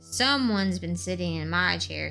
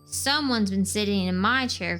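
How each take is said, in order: First: It is said in a loud, roaring voice. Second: It is said in a crying, upset voice.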